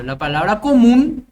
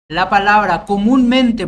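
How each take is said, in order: First: "común" said louder with a rising tune, the stress on "mún"; teacher lifts "común" at the end, punching "mún". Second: "comúnmente" said louder, the "mún" of "comúnmente" leaned on hard; teacher sounds out "comúnmente" with the tilde syllable "mún" hit loudly; stress on comúnmente. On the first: Teacher showing the class where "común" carries its tilde, loud and rising. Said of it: "la palabra común lleva tilde". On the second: Teacher showing the class that "comúnmente" keeps its stress, loud on "mún". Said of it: "la palabra comúnmente, por ejemplo".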